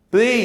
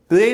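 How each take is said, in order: First: प्ले gliding from "ay" into "ee"; diphthong glide. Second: प्ले without the closing "ee" glide; mispronounced single vowel. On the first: Teacher models the diphthong, प्ले gliding "ay" to "ee". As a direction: end प्ले on a light "ee". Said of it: "ए ई". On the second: Teacher rejects a reading, प्ले with a single vowel. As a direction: keep प्ले on one "ay" vowel. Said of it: "प्ले नहीं है". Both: Shown as a demonstration.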